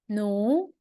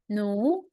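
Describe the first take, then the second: First: The pitch rises from mid to high. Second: The pitch rises from mid to high.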